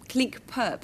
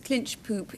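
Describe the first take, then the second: First: The name is said with a Dutch pronunciation. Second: The name is said with an English pronunciation. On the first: This is the original local pronunciation. "is pronounced clink, clink perp" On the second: This is how the British came to say it. "we pronounced it clinch poop"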